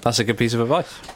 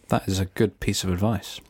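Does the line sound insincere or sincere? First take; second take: sincere; insincere. First: The line sounds warm and sincere. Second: The line sounds flat and insincere. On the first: The speaker calls it right. "That was better" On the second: The speaker calls it wrong. "That sounded really insincere"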